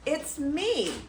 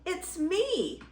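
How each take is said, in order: First: Higher-pitched, lightly bleated reply; bleating goat. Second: Tiny, high-pitched goat voice; squealing baby goat. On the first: Middle Gruff answering the troll, light high bleat. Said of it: "Middle Gruff bleated". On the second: Baby Gruff answering the troll, high little squeal. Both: Acted.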